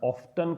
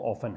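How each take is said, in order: First: The t sound in the middle is pronounced. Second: The t sound in the middle is silent. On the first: This is the American way of saying it. "America वाले जो लोग हैं इसका उच्चारण ऑफ्टन करते हैं" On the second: This is the British way of saying it. "British जो इसका प्रोनाउंसिएशन है वो ऑफन है"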